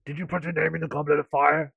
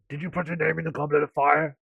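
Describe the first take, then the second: First: It is said quietly and calmly. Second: It is said quietly and calmly.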